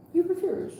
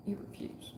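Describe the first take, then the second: First: Pitched well up, punched hard on you; emphatic you refuse. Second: Unvoiced, breathy-free hush, dropped way down; hushed you refuse. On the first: Acted. Reader scolding Raymond for refusing, sharply raised. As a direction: call him out, pointing the finger. Reader calling out stubborn client. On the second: Reader to Raymond, whispering his stubborn card. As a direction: let it land as a hushed verdict.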